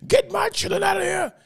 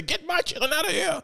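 First: Retold shout. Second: High-pitched imitated cry to get the kids out; retold frantic plea. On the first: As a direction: belt it out like she's losing control. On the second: Officer at the graduation ordering the kids away, high frantic voice. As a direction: squeal it like a panicked lady officer.

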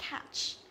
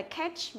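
First: "catch" with a wide, open æ; correct E bẹt catch. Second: First "catch" with a narrow e, like "ketch"; wrong E in catch. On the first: Teacher corrects the mistake, open-mouthed "catch". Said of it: "mà là catch". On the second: Teacher contrasts for students, mistaken e in "catch". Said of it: "Không phải là catch". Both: Shown as a demonstration.

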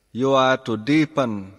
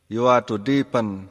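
No difference in how they are said.

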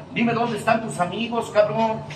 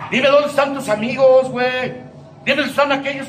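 First: Said in the usual way. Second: "Dime dónde están tus amigos" again, pushed louder and higher; demanding repeat, stress on "dónde". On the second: Retold or imitated. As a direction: press the question harder the second time. Padrino scolding, repeated louder.

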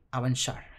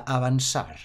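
First: "avanzar" said the Portuguese way, with a soft sh sound for the z; reading "avanzar" like the Portuguese game text; Portuguese avançar. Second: Said in the usual way. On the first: Shown as a demonstration. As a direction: say "avanzar" as "avanshar", Portuguese style. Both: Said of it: "en lugar de continuar ... pone".

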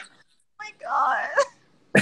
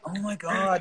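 First: Tiny, high, whispery whine; whiny. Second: Said in the usual way. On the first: Retold or imitated. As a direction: exaggerate it into a faint high whimper. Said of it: "but I hear it whiny". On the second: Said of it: "he doesn't do it in a whiny tone".

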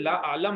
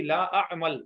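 First: لا اعلم with the ل before the م, the mistaken form; wrong version quoted. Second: لا اعمل with the م before the ل; correct pronunciation. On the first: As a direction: say اعلم with the laam first, as the student wrongly did. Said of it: "اگر آپ نے لا اعلم کہا تو مجھے نہیں پتا". (غلط تلفظ: لا اعلم، لام پہلے) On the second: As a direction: say اعمل with the meem sound first and the laam after it. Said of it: "میم پہلے سے لام بعد میں". (لا اعمل میں میم پہلے اور لام بعد میں) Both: Shown as a demonstration.

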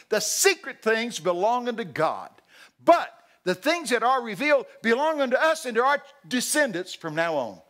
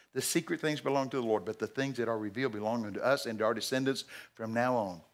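First: Booming verse. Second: Said in the usual way. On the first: Acted. Preacher proclaiming Deuteronomy to the congregation. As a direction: ring the verse out.

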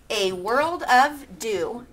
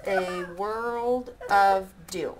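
First: Slow haiku reading; wrong take. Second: Slow, even haiku reading; corrected take. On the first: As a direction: reads it out slowly, counting. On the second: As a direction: reads the line slowly and carefully. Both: Shown as a demonstration. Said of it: "Wait, I didn't do that right".

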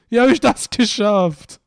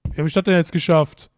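First: Higher, louder and slower, stretched out in disbelief; loud, drawn-out disbelief; baffled outcry. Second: Said in the usual way. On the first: Real, not acted. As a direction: cry out the question, baffled. Repeats the question, more baffled.

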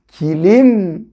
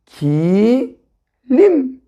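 First: "Kilim" blended as one word with a held final m; syllables joined. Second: "Kilim" split into a long "Ki", a pause, then "lim"; syllable by syllable. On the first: Teacher showing how it is read, "Kilim" joined up. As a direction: say "Kilim" unbroken, carefully drawn out. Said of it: "Kilim diye okuruz". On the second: Teacher reading to new readers, "Kilim" broken into syllables. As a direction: sound out "Kilim" in two separated syllables. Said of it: "Ki diye okuruz değil mi?". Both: Shown as a demonstration.

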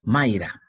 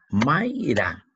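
First: Said in the usual way. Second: "Mayra" in two beats, may, ra; "Mayra" drawn out as may - ra; syllable separation. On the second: Shown as a demonstration. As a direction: split "Mayra" with a gap before ra. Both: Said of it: "separa en sílaba".

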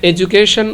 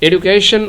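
First: এডুকেশন pronounced with j, not d; j pronunciation. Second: এডুকেশন said "edukeshan" with a hard retroflex d; এডুকেশন with a clear d sound; d pronunciation. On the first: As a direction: say এডুকেশন with j replacing d. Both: Shown as a demonstration. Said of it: "উচ্চারণ করলেও সঠিক".

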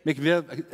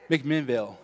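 First: "McVille" said without the middle syllable, rising like a question; wrong town name, questioning. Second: "McMinnville" said in full with all three syllables, settled; corrected town name. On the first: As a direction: guess at "McVille", unsure and asking. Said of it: "I might say this name wrong". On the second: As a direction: land on "McMinnville" once the crowd helps. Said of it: "you guys know what it is". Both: Real, not acted.

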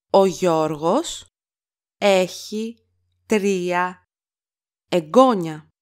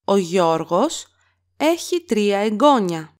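First: Each word set apart by pauses; slow word-by-word repeat. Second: Said in the usual way. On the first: Shown as a demonstration. Teacher to learners, slow word-by-word model. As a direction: spell it out slowly, word by word. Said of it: "teacher repeats word by word". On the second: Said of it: "teacher models sentence".

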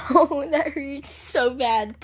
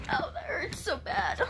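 First: Slow pained moan. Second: High whispered sob of pain; whispered cry. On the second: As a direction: sob it under the breath. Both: Real, not acted. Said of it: "I'm crying right now".

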